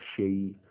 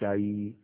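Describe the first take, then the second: First: The vowel is an 'e' sound. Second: The vowel is an open 'a' sound. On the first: The speaker calls it wrong. "not shei" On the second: The speaker calls it right. "you say shai"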